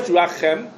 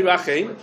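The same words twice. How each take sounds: First: Rachem ending in a short open "em"; short-vowel reading. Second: Rachem ending in a long "eim"; long-vowel reading. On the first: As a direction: say Rachem as ra-CHEM. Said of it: "Some of them switch". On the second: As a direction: say Rachem as ra-CHEIM. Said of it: "I saw lots of them say". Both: Shown as a demonstration.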